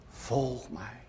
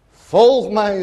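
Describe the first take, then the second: First: Hushed, far-off call of Christ; soft call. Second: Ringing, raised call of Christ; loud call. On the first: Preacher voicing Christ's call to the hesitant sinner, hushed and soft. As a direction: let it fall quiet like a distant voice. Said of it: "En hij roept mij". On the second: Preacher voicing Christ's command to follow, called out loud. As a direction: call it out boldly to the hall. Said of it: "roept hij". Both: Retold or imitated.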